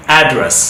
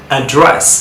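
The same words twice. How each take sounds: First: অ্যাড্রেস as "AD-dress"; American front-stressed অ্যাড্রেস; American pronunciation. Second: অ্যাড্রেস as "uh-DRESS"; British end-stressed অ্যাড্রেস; British pronunciation. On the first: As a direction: stress the first syllable of অ্যাড্রেস. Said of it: "কীভাবে আমেরিকানরা sound করে". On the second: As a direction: stress the second syllable of অ্যাড্রেস. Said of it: "কীভাবে ব্রিটিশে sound করে". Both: Shown as a demonstration.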